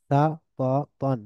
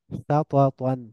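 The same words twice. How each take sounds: First: সাতাতান slow, in three separate beats; syllable by syllable. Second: Said in the usual way. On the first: Shown as a demonstration. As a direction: pause after each syllable of সাতাতান. Teacher breaks word into syllables. (ভেঙে ভেঙে সাতাতান)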